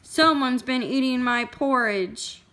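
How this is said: It is said in a great, huge voice.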